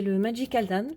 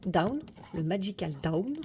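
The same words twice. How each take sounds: First: Said in the usual way. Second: DOWN with a careful English "ow" diphthong; over-careful English accent on DOWN, said "da-oun"; effortful English accent. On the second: Shown as a demonstration. (accent anglais appliqué sur DOWN) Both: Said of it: "avec mon superbe accent anglais".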